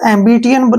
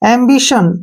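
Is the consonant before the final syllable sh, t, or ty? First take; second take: ty; sh. First: The middle sounds like 't' followed by 'y'. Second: The middle sounds like 'sh'. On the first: The speaker calls it wrong. "इसको एम्बिटियन नहीं बोलेंगे हम" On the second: The speaker calls it right. "टी आई ओ का उच्चारण श के रूप में करेंगे"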